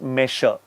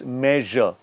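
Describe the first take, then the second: First: The middle consonant is a plain s sound. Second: The middle consonant is a z-like sound. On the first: The speaker calls it wrong. "It's not measure" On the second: The speaker calls it right. "you're pronouncing it as a Z"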